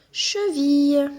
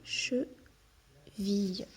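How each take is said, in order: First: Cheville said slowly and loudly as the answer word; emphatic answer. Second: Cheville drawn out very slowly and softly, each syllable separate; slow soft model word; stretched slowly. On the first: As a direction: land cheville firmly, louder. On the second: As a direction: stretch out Cheville gently for the child to hear. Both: Shown as a demonstration. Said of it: "Il nous manquait vie".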